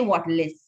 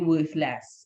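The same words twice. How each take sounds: First: It is said with a Trinidadian pronunciation. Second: It is said with a standard pronunciation. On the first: "we like to say worthless. That's how we pronounce it" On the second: "which is really worthless"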